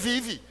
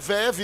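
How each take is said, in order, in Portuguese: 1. A primeira vogal soa como 'i'. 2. A primeira vogal soa como 'e'. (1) "é vive" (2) "tu está falando errado esse verbo"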